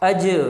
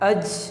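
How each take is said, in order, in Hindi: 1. अंतिम व्यंजन एक गूंजते झटके के साथ खत्म होता है। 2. अंतिम व्यंजन बिना झटके के सपाट रुक जाता है। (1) "यहाँ पर भी कलकला होगा और आप इसको पढ़ेंगे" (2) "ऐसे नहीं पढ़ना"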